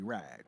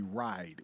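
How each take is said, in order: First: The vowel is flattened, closer to an 'a'. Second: The vowel is a standard gliding 'i' sound. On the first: This is how people from Detroit say it. "we say ride. ... it's with an A" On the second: This is how outsiders say it. "we don't say ride"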